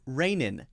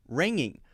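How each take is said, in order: First: Both nasal sounds are made with the tongue tip. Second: Both nasal sounds are made with the tongue back. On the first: "Rainin would be using the N sound twice" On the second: "ringing would be using the ing sound or the N G sound twice"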